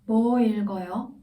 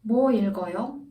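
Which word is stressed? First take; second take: 뭐; 뭐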